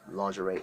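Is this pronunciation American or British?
American. It is said with an American accent. "Lingerie is American"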